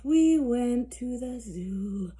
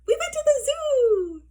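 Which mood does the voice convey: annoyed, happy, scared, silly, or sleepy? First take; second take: sleepy; happy. First: It is said in a sleepy, drowsy voice. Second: It is said in a happy, cheerful voice. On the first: "in a sleepy voice" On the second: "in a happy voice"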